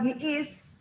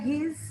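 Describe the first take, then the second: First: It is said as two separate full words. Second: It is contracted into one short syllable. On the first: The speaker calls it wrong. "kamu jangan bilang he is" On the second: The speaker calls it right. "Kalau dia bilangnya his"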